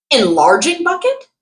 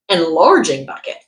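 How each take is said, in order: First: Enlarging bucket asked with a high puzzled rise; puzzled question. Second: Said in the usual way. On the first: Real, not acted. Reading a product listing aloud, puzzled at the odd name. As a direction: query "Enlarging bucket" in disbelief.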